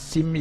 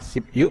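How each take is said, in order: First: The first word ends in an m sound. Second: The first word ends in a p sound. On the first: "bacanya sim yuk" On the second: "Tulisannya sip yuk"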